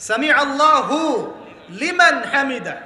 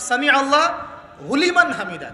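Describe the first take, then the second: First: "সামি আল্লাহু" with long final "হু", pause, then "লিমান হামিদা"; correct word division. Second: "সামি আল্লাহ", pause, then "হুলিমান হামিদা" as one phrase; wrongly split words. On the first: Shown as a demonstration. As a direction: demonstrate "হু" closing "আল্লাহু", not opening "লিমান". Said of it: "বলে কোনো শব্দ আছে". ("সামি আল্লাহু" থেমে "লিমান হামিদা", শুদ্ধ বিরতিতে) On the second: Retold or imitated. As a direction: mimic the mistake of moving "হু" onto "লিমান". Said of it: "আমরা শব্দ বানিয়েছি". ("হু" ভুল করে "লিমান"-এ জুড়ে "হুলিমান" বলা)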